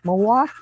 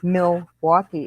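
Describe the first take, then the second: First: The word is shortened and slurred together. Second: Every syllable is pronounced fully and carefully. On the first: This is how locals say it. "how we would actually say Milwaukee ... We're so damn lazy" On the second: This is how outsiders say it. "We don't say Milwaukee"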